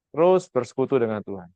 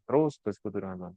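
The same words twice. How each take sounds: First: Said in the usual way. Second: Softly repeated. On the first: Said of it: "Maka yang saya kerjakan adalah konstan". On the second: Shown as a demonstration. Preacher repeating his point softly to the congregation. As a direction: echo the phrase much softer, lower.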